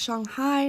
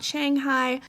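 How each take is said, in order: First: It is said the local Chinese way. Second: It is said the usual American way. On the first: The speaker calls it right. "it is pronounced Shanghai" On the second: The speaker calls it wrong. "not Shanghai"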